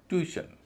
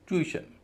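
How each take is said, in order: The two takes are said the same way.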